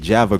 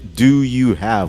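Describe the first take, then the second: First: The words run together into one reduced form. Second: Each word is said separately and in full. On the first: The speaker calls it right. "We say Java girlfriend" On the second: The speaker calls it wrong. "We don't say do you have"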